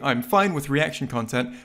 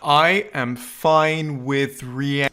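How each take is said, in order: First: It is said at normal speed. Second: It is said very slowly and clearly.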